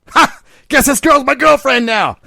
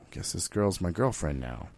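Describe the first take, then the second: First: It is said with gleeful excitement. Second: It is said with a resigned sigh.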